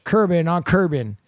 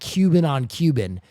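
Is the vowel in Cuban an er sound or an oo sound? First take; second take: er sound; oo sound. First: The u vowel is replaced with an er sound. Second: The u vowel is a plain oo sound. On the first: "she goes" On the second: "instead of saying"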